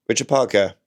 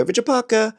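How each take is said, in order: First: Said in the usual way. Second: Much higher, sing-song call of the name; cat owner's high calling voice; high animal voice. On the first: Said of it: "if I just spoke to him like". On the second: Shown as a demonstration. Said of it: "my voice suddenly go high".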